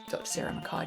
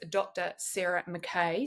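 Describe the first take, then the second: First: The surname is said the traditional Scottish way. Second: The surname is said the American way. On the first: "I pronounce it Mackay because it's the traditional Scottish way" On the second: "you would pronounce it in the U S"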